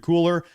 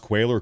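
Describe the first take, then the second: First: The name sounds like the word cooler. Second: The name sounds like kway-ler. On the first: The speaker calls it wrong. "mispronouncing your last name" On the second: The speaker calls it right. "It's pronounced Quailer"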